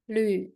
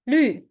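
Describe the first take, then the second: First: The pitch dips low, then rises. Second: The pitch falls sharply from high. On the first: "And the third tone?" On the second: "And the last tone?"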